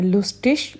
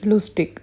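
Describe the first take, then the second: First: The ish reading of लुस्टिश. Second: लुस्टिक with a hard k ending; the ik reading of लुस्टिक. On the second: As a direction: close लुस्टिक on a crisp ik. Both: Shown as a demonstration.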